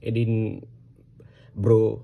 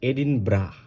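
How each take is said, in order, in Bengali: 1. শেষ অংশটি এক দফার একটি দল, go-এর সাথে মেলে। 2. শেষ অংশটি একটি ছোট, একক দল, bra। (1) "এই এইভাবে" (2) "বাট দিস ইজ এডিন ব্রা"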